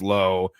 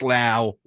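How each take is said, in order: First: The name rhymes with the word go. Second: The name rhymes with the word now. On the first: "pronounced it Lowe" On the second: "Brandon rhymes with now"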